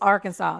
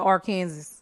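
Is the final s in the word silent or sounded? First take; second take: silent; sounded. First: The final s is silent, ending in saw. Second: The final s is sounded, like Kansas. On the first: The speaker calls it right. "It's Arkansas" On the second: The speaker calls it wrong. "You're not supposed to pronounce it Arkansas"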